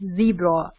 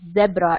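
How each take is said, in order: First: It is said in the American way. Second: It is said in a non-American way. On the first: The speaker calls it right. "correct American pronunciation" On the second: The speaker calls it wrong. "It's not zebra"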